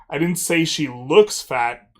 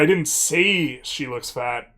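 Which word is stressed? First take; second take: looks; say. First: The word "looks" carries the main stress. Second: The word "say" carries the main stress. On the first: She actually is fat, not just looks it. "I said that she just is fat" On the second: The speaker thought it but did not voice it. "means I didn't say it, but I thought it"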